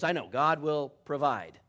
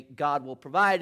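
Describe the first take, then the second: First: Loud, weary "I know, God will provide", falling on "I"; exasperated dad. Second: Loud, earnest "God will provide" with a rise on "provide"; young man's stock answer. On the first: Tired father beating the suitor to his answer, exasperated. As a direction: cut him off and finish his line yourself. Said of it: "and the dad goes". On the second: Suitor about to repeat his answer, said loud and earnest. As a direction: bellow "God will provide" as the cue line. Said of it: "the young man is about to say". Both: Retold or imitated.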